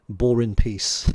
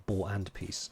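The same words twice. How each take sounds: First: Slow, loud "Boar in Peace", each word stretched; drawn-out name read. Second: Said in the usual way. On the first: Real, not acted. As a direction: savour the pun name "Boar in Peace" slowly and loudly. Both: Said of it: "Isn't that a book?".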